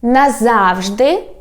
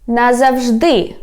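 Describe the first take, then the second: First: Slow "Назавжди", stressed on ЗАВ, rising end; stress on middle syllable. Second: Slow "назавжди", stressed on ДИ, falling; stress on last syllable. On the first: Teacher repeating for learners, "Назавжди" stressed on ЗАВ. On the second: Teacher repeating for learners, "назавжди" stressed on ДИ. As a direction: save the stress for the end of "назавжди". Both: Shown as a demonstration. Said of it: "Let me repeat one more time".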